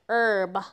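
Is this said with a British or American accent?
American. It is said the American way.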